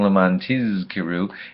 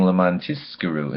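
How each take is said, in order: First: The middle consonant sounds like a Z. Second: The middle consonant sounds like an S. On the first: In order that you remember. The speaker calls it right. "in order that you be remembered" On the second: In order that you be rewarded. The speaker calls it wrong. "having that Zion sound like an S"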